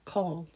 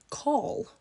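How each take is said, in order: First: "Coral" tried out in an English accent. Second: Coral in an English accent, pitched up high; second go at an English "Coral", lifted; "Coral" raised high in an English accent. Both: Shown as a demonstration. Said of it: "How do you say that in an English accent?".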